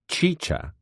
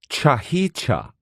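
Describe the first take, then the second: First: The word is said with two syllables. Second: The word is said with an extra syllable. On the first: This is the usual pronunciation. "which is pronounced chicha" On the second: Someone else said it this way. "but which he pronounced chahicha"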